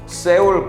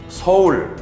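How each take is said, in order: First: The first syllable is said with an 'e' vowel. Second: The first syllable is said with an 'eo' vowel. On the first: This is how Spanish speakers say the name. The speaker calls it wrong. "세울 코리아 아니고" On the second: This is how Koreans say the name. The speaker calls it right. "서울 코리아 이렇게 발음해야 합니다"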